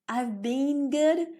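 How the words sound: It is said in a British accent. "is British"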